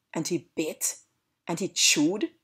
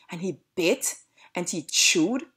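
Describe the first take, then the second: No difference in how they are said.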